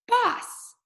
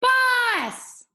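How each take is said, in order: First: "Boss" yelled up high with a falling end; screamed name. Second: "Boss" shouted very high and loud, falling; child screaming "Boss" for his dog; shouted name. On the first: Acted. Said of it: "Jackson kind of screams it". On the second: Shown as a demonstration. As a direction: call "Boss" across the yard. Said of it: "Try that with me".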